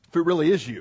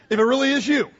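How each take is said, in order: First: Said in the usual way. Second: Higher, louder, pointed; doubtful challenge. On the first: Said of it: "Peter answered him". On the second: Acted. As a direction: push him to prove it. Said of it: "in case it's somebody else walking on the water".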